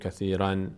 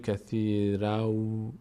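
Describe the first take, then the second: First: The word ends in an n sound. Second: The word ends in a w sound. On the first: The speaker calls it wrong. "اینجا که دیگه نمیگیم کثیرن" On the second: The speaker calls it right. "این تنوین باید به جای نون واو تلفظ بشه"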